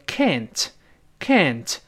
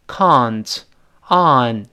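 First: American "can't" with the open vowel of "cat"; American pronunciation. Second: British "can't" with a long ah vowel; British pronunciation. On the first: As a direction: say "can't" slowly the American way, like "kant". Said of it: "美音重把啊变成哎". (美音，can't读成“哎”音) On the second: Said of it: "英联邦读成". (英联邦口音，can't读“啊”音) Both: Shown as a demonstration.

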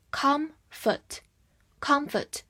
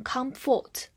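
First: "comfort" with a short, unstressed schwa in the second syllable; weak second syllable. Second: "comfort" mispronounced with a full "fort" in the second syllable; wrong full vowel. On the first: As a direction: stress the first syllable of "comfort", reduce "fort" to "fuht". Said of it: "所以后半部分是弱读". (comfort 重音在前，后半弱读发“呃”) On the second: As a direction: say the end of "comfort" like the word "fort", unreduced. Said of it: "不要读成comfort". (故意把 comfort 后半读成不弱读的 fort) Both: Shown as a demonstration.

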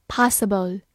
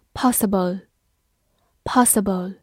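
First: "possible" with an American open "ah" in the first syllable; American pronunciation. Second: Said in the usual way. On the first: Shown as a demonstration. Teacher showing learners the alternative, "possible" in American pronunciation. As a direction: say "possible" the American way, like "PAH-suh-bl". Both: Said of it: "美式发音也可以读作".

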